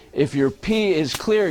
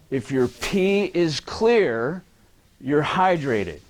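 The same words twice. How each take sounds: First: Said in the usual way. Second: "If your pee is clear" drawn out slowly, rising on "clear"; slow emphatic quote. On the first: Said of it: "Guess what?". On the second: Shown as a demonstration. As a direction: spell out the common belief slowly. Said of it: "this is what I hear a lot".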